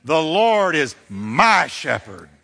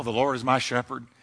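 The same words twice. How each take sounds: First: Slow build to a long, punched "my"; attitude, stress on my. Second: Said in the usual way. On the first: Shown as a demonstration. Preacher leads congregation saying it with attitude, big stress on "my". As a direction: say it with attitude, leaning hard on "my". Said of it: "can we just say it with some attitude now". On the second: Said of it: "can we just say it with some attitude".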